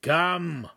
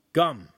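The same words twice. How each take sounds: First: Sternly. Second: Said in the usual way. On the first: A narrator's reading. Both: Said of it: "he repeated sternly".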